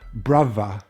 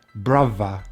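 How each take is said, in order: The two takes are said the same way.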